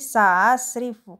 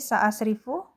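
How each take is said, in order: First: The second hamza is softened and glided over. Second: The second hamza is pronounced as a full stop. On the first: "kalau ditashil menjadi sa'asrifu" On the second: "Jadi ini sa'asrifu"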